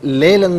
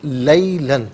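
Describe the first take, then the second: First: The first vowel is a plain 'e' sound. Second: The first vowel is the diphthong 'ai' sound. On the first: The speaker calls it wrong. "लेलन नहीं" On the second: The speaker calls it right.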